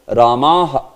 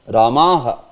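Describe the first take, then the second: No difference in how they are said.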